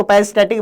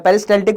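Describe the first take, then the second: First: पेरिस्टैटिक with the L left out; silent L. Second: पेरिस्टाल्टिक with the L clearly sounded; L pronounced. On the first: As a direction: drop the L before the T, saying पेरिस्टैटिक. (पेरिस्टैटिक, ल के उच्चारण के बिना) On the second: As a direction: voice the L before the T in पेरिस्टाल्टिक. (पेरिस्टाल्टिक में ल का साफ़ उच्चारण) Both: Shown as a demonstration. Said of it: "एल यहाँ पे साइलेंट नहीं होता".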